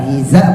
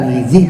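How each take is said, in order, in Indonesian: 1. Vokal a mengikuti bunyi z. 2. Vokal i mengikuti bunyi z. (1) "bukan hiza" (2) "bukan hizi"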